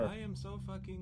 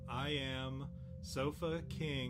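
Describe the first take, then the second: First: The phrase is said fast, words running together. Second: The phrase is said slowly, as separate words. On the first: It reveals a hidden rude phrase. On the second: It sounds like an ordinary name.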